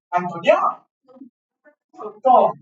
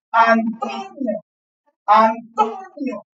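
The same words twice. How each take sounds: First: Said in the usual way. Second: "Antonio" said slowly, every syllable clear; slow careful pronunciation. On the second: Shown as a demonstration. ("Antonio" pronunciado lento y claro) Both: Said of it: "escuchen cómo pronuncio el nombre de Antonio".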